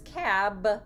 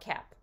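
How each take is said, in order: First: The final consonant is a voiced b. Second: The final consonant is a voiceless p. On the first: "Was is the phoneme buh?" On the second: "he would devoice the buh and make it a voiceless bilabial stop"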